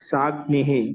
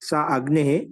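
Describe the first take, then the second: First: The two words are run together as one. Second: The two words are said separately, split apart.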